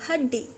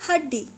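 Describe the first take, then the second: No difference in how they are said.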